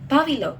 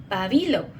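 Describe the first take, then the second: First: Pabilo as PA-bi-lo, PA raised; stress on first syllable. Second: Pabilo as pa-BI-lo, BI raised; stress on second syllable. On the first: Speaker shows how Valencia people say it, PA-bi-lo. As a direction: hit the opening syllable of pabilo. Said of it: "but in Valencia". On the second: Speaker shows how Caracas people say it, pa-BI-lo. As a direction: hit the middle syllable of pabilo. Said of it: "in Caracas". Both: Shown as a demonstration.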